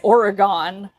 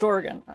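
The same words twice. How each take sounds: First: The word does not sound like 'organ'. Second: The word sounds much like 'organ'. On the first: The speaker is not from the place. The speaker calls it wrong. "you don't say Oregon unless you're a weirdo" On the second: The speaker is from the place. The speaker calls it right. "if you're from Oregon, it's pronounced Oregon"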